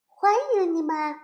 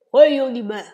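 First: Higher beaver greeting. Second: Loud beaver greeting. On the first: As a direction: welcome them as a small beaver. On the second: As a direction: call out a welcome as a beaver. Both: Acted.

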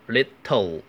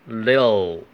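First: "little" with a hard, released T; mispronounced little. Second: "little" with no popped T, like "li'l"; unreleased T. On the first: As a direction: say "little" as "lit-toe", popping the T. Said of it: "不要读成little". (把little里的T爆破读出来) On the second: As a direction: slide from the T straight into L in "little". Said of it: "这个T是不爆破的". (little的T不爆破，直接发边音) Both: Shown as a demonstration.

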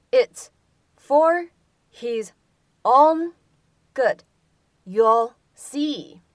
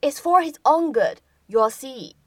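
First: "It's for his own good" each word set apart with pauses; slow and separate, one word at a time. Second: Said in the usual way. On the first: Shown as a demonstration. Teacher splitting the line into single words for the class. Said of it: "teacher reads word by word". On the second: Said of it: "teacher repeats the line".

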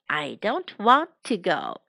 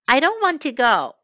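First: Lower, word-by-word repeat of "I don't want to go"; measured teaching repetition; slow model repeat. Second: Said in the usual way. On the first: Shown as a demonstration. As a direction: space out each word for learners. Slower repeat for learners.

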